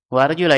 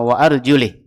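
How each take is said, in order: First: The final vowel is an open 'a' sound. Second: The final vowel is a closed 'i' sound. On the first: The feet are to be washed. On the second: The feet are to be wiped.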